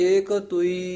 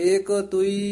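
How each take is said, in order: No difference in how they are said.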